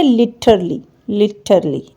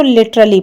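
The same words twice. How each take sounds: First: लिटरली as "litərli", no stressed a; correct pronunciation. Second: लिटरली with the extra "a" stressed; wrong pronunciation. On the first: Teacher modelling the right लिटरली. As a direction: say लिटरली lightly without the a. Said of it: "ए नहीं पढ़ना". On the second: Teacher showing the mistaken लिटरली. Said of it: "सारा stress हम इस ए double L Y पे". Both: Shown as a demonstration.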